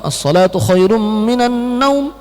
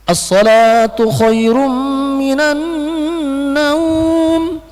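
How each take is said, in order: First: The vowel in the last word is kept short. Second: The vowel in the last word is held long. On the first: The speaker calls it wrong. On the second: The speaker calls it right.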